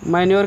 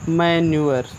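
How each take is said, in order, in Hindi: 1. अंत को एक ही 'yor' ध्वनि की तरह बोला जाता है। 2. अंत को 'yoo-uh' के रूप में दो स्वरों की तरह बोला जाता है। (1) "मैन्योर कहिए" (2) "या मैन्यूअर"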